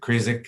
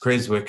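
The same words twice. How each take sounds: First: The W in the middle is silent. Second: The W in the middle is pronounced. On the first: The speaker calls it wrong. "as opposed to Creswick" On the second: The speaker calls it right. "it's pronounced as Creswick in Australia ... It's not a silent W"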